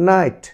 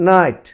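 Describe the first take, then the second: Both takes have the same delivery.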